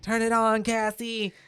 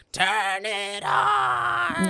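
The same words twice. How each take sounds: First: Mock a high-pitched yelled order; imitated shriek. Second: Imitating a drawn-out, very high yell; high-pitched shriek. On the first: Echoing Aunt Beth's order to Cassie, high mock shriek. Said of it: "a shriek". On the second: Acting Aunt Beth yelling at Cassie, high shriek. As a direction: shriek it slowly at the top of your range. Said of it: "she yells at Cassie".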